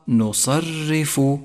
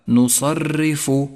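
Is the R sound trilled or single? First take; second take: single; trilled. First: The R sound is a single tap. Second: The R sound is trilled several times. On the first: The speaker calls it right. "والصواب نصرف" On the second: The speaker calls it wrong. "احذر وأنت تقرأها من أن تتكرر معك في اللفظ، أي هكذا"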